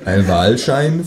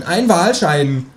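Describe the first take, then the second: First: "Wahlschein?" slow and rising in disbelief; puzzled echo. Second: "Wahlschein" drawn out slowly as the pun; punchline stress. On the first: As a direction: echo it back, baffled. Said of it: "frage ich". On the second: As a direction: land the joke slowly. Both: A narrator's reading.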